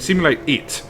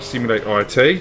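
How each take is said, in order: First: The last part is said as one word. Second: The last part is said as two letters. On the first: The speaker calls it right. "It's simulate I yeah simulate it" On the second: The speaker calls it wrong. "not simulate I T"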